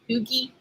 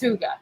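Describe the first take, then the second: First: The word starts with oo and ends in ee. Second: The word starts with oo and ends in ah. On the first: The speaker calls it wrong. "I used to call it" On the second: The speaker calls it right. "It's Huga"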